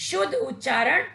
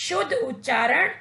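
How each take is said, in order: The two takes are said the same way.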